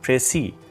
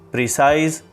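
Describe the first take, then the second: First: It is said in the French-style way, 'précis'. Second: It sounds like the English word 'precise'. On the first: The speaker calls it right. "The correct pronunciation for this word is précis" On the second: The speaker calls it wrong. "Some students pronounce it as precise, precise, so all these are incorrect"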